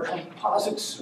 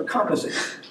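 First: Composites stressed on second syllable, com-POS-ites; alternative pronunciation. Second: Composites stressed on first syllable, COM-posites; alternative pronunciation. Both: Shown as a demonstration. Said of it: "however you want to pronounce that".

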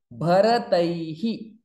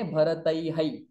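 First: Bharataihi, the ai followed by a short hi; correct visarga ending. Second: Bharataihai, the visarga wrongly sounded as hai; the mistaken Bharataihai, ai repeated at the end. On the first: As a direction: end Bharataihi on hi, not hai. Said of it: "but we don't say Bharataihai". (Bharataihi with the visarga sounded as hi) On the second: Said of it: "but we don't say". (Bharataihai said the wrong way on purpose) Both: Shown as a demonstration.

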